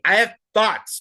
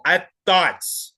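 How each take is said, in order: First: Mocking imitation. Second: Slow mocking imitation. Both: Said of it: "A little spicy, but I have thoughts".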